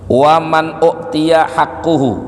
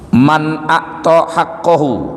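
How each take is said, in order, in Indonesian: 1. Kata kerjanya diucapkan uktiya, berakhiran -uhu. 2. Kata kerjanya diucapkan a'ta, berakhiran -ahu. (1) "kalau dimajhulin berarti hakkuhu" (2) "kalau pakai akto"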